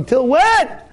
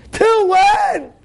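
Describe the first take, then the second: First: Higher, pressing question; raised challenge. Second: Much higher shouted Till when; shouted challenge. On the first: Rabbi pressing the worried listener, raised challenge. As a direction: push the listener a notch. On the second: Rabbi pressing the worried listener, shouted Till when. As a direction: cry out Till when at full force. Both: Acted.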